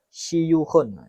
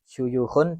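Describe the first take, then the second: First: The first vowel is an 'i' sound. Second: The first vowel is an 'u' sound. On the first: "wa kasriha" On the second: "bidhammis sini"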